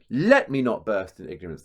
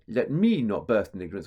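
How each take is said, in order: First: The first word carries a strong stress. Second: The first word is not stressed. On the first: The speaker calls it right. "So there's another trochee there" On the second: The speaker calls it wrong. "you wouldn't go"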